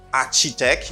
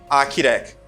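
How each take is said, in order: First: The middle consonant is a 'ch' sound. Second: The middle consonant is a 'k' sound. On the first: The speaker calls it wrong. "You do not say architect" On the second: The speaker calls it right. "You got a k sound as an architect"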